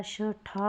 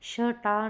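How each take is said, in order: First: शठा slow, with breathy "ṭha"; correct, aspirated. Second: शटा with a hard "ṭa"; wrong, unaspirated. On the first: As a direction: puff out the "ṭh" of शठा. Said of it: "होता है". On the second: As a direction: say शटा with no puff on "ṭ". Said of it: "नहीं होता". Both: Shown as a demonstration.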